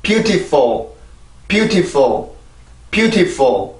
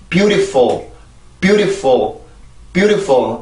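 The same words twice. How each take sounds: First: "beautiful" as byoo-tee-fo with a crisp T; clear T. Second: "beautiful" as byoo-di-fo, T softened to a quick tap; flapped T. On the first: Teacher repeating the drill once more, clear T. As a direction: repeat "beautiful" evenly, releasing the T fully. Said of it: "다시 한번". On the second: Teacher showing how the word is usually heard, flapped T. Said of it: "아마 요렇게 들을 거예요". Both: Shown as a demonstration.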